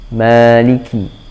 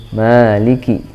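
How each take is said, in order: No difference in how they are said.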